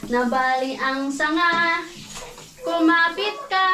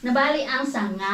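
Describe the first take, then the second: First: Slow sung line. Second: Words still breaking with laughter; laughing through words. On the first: Mom singing the nursery rhyme slowly to her toddler. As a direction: sing it slowly, sing-song. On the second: Mom singing the nursery line while still laughing. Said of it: "Lakas mo tumili". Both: Real, not acted.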